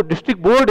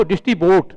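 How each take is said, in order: First: Said in the usual way. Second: "डिस्ट्रिक्ट बोर्ड" as "distti bot", consonants dropped; mispronounced district board. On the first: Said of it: "मूल". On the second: Shown as a demonstration. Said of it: "बदलाव कर देते हैं लोग". ("डिस्ट्रिक्ट बोर्ड" को "डिस्टी बोट" जैसा बोलकर)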